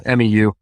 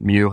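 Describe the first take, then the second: First: It is said as three separate letters. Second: It is said as one short word.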